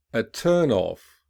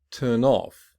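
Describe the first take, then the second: First: Noun form, lean on TURN in "A turn off"; stress on first part. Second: "Turn off" with OFF stressed; stress on second part. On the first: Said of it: "listen to stress pattern". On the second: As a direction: verb form, lean on OFF in "Turn off". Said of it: "commonly stressed on the second". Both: Shown as a demonstration.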